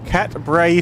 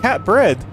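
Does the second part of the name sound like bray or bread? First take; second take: bray; bread. First: The second part sounds like bray. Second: The second part sounds like bread. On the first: The speaker calls it wrong. "I thought it was like cat bray" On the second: The speaker calls it right. "I've been saying it wrong"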